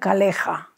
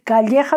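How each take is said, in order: First: The middle consonant is a plain l sound. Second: The middle consonant is a palatal ll sound. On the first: "decían caleja" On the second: "en vez de decir calleja"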